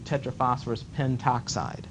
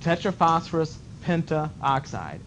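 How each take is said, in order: First: No extra vowel comes before 'oxide'. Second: An extra 'a' vowel comes before 'oxide'. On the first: "sometimes they drop that little a" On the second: "this is the way you're supposed to say it"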